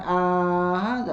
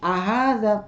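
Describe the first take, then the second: First: The first vowel is drawn out long. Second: The first vowel is short, one beat. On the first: The speaker calls it wrong. "jangan ahadza, enggak" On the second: The speaker calls it right. "a-nya satu harokat aja"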